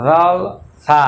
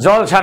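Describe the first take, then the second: First: জলসা with an Arabic z and a lisped th; teacher correcting জলসা; Arabic-style jalsa. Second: Said in the usual way. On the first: Shown as a demonstration. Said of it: "আমরা বলবো". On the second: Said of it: "জলসা না, আমরা বলবো".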